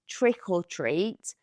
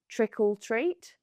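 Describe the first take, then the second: First: The word 'or' is said as a separate word. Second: The 'or' blends into 'trick', sounding like 'trickle'. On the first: The speaker calls it right. "it's trick or treat" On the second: The speaker calls it wrong. "not trick or treat"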